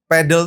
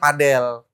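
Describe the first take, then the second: First: It is pronounced the Western, English-like way. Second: It is pronounced the local, Indonesian-like way. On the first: It sounds too foreign. "terlalu bule gitu" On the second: It sounds more local. "Biar Indonesia gitu"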